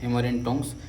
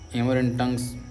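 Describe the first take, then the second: First: The vowel in tongs sounds like 'o'. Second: The vowel in tongs sounds like 'uh'. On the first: The speaker calls it right. "टोंग्स है" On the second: The speaker calls it wrong. "टंग्स तो नहीं है"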